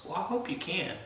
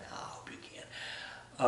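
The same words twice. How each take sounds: First: Said in the usual way. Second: Slow unvoiced whisper. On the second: Shown as a demonstration. Repeated as a whisper.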